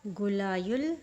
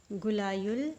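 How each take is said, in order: Both takes have the same delivery.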